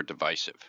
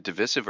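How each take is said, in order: First: "divisive" with long i in the middle, dih-VICE-iv; long-i pronunciation. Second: "divisive" with short i in the middle, dih-VISS-iv; short-i pronunciation. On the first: Co-host offering the other way, long-i "divisive". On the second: Co-host asking which way it is said, short-i "divisive". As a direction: say "divisive" with a middle syllable like "miss". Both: Shown as a demonstration. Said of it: "Is it divisive or divisive".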